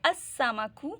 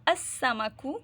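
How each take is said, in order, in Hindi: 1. 'l' double s में मिल जाता है। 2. 'l' डबल s में मिल जाता है।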